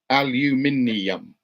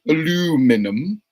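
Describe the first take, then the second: First: It is said with a British pronunciation. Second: It is said with an American pronunciation. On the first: The speaker calls it right. "A L U M I N I U M" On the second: The speaker calls it wrong. "Not aluminum"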